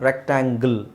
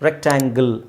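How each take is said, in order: No difference in how they are said.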